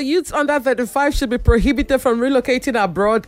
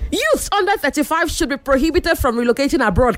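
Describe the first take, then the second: First: The sentence is read plainly, without dramatic expression. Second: The sentence is read with dramatic, heightened expression. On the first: The speaker calls it wrong. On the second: The speaker calls it right.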